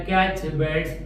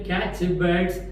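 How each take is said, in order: The two takes are said the same way.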